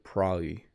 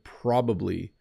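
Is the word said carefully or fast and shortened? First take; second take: fast; carefully. First: The word is said fast and shortened. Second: The word is said fully with every syllable. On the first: "when I say it quick, it sounds like probably" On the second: "I said probably"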